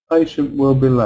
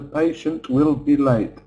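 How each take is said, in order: First: The T at the end of patient is a glottal stop. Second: The T at the end of patient is fully pronounced. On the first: The speaker calls it right. "an English person would just use glottal stop" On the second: The speaker calls it wrong. "That's how students try to say it"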